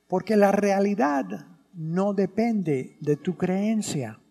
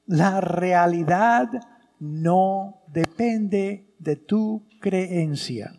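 First: Said in the usual way. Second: "La realidad no depende de tu creencia" said slowly, word by word; slow it down and lean on "tu"; slow emphatic repeat. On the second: Shown as a demonstration. (repetición lenta, acentuando "tu creencia")

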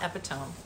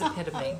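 First: "epitome" as EP-ih-tome, rhyming with home; wrong pronunciation. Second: "epitome" as eh-PIT-uh-mee, four syllables; correct pronunciation. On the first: Shown as a demonstration. Mother quoting daughter's mistake, "epitome" mispronounced as EP-ih-tome. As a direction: say "epitome" in three syllables with a silent final e. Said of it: "First of all, it's not epitome". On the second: Retold or imitated. Daughter realizing the word, "epitome" said eh-PIT-uh-mee. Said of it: "That is how you spell the word epitome".

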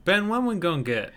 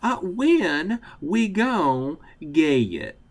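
First: Southern accent. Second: Slow, drawn-out Southern twang; Southern accent. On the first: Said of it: "this Southern accent segment". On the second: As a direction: stretch it out, Southern style. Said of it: "you're gonna have to be the one who says". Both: Shown as a demonstration.

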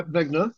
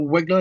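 First: Wegner said as "VEG-ner", rising. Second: Wegner said as "WEG-ner", rising. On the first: Guest trying out the cinematographer's surname, Wegner with a V. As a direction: start Wegner with a V sound. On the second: Guest offering another guess at the surname, Wegner with a W. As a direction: start Wegner with an English W sound. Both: Shown as a demonstration. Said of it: "I don't know how you pronounce it".

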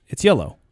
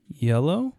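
First: YELLOW falling, a settled statement; telling, not asking. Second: YELLOW rising like a question; a kid's doubtful answer, voice lifting on "yellow"; unsure questioning tone. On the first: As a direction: answer firmly, voice dropping on "yellow". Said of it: "Are you telling me?". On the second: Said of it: "say things like you don't believe yourself". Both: Retold or imitated.

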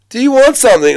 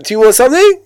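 First: Imitating an Australian question, pitched high and loud, "something" leaning down; mock Aussie asking "Do you want something?" up high; mock Australian upspeak. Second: Imitating an Australian question, high and loud, "something" swinging up at the end; mock Australian upspeak. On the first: Mocking how Australians ask a question, high and loud. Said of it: "the question that always goes up". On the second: Mocking Australian question tune for the host, high with a rising end. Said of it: "they speak like that".

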